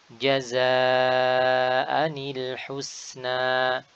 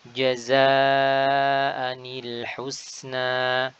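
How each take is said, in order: Both takes have the same delivery.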